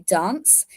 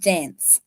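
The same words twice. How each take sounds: First: Dance is said with an English pronunciation. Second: Dance is said with an Australian pronunciation. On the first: "I actually say dance" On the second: "like Australians do"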